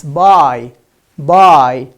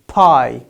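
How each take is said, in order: First: Low, loud "buy" with voiced B; emphatic correct "buy", B not P; clear B sound. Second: "Pie" for buy, aspirated P. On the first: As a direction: model "buy" with B, no puff of air. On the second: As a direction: slowly show the wrong P in "Pie". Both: Shown as a demonstration. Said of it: "Pie is wrong".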